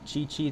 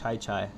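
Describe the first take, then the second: First: The vowel in each syllable sounds like 'ee'. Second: The vowel in each syllable sounds like 'eye'. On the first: "Did I say it correctly?" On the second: "Unless it's uh, pronounced Chai Chai"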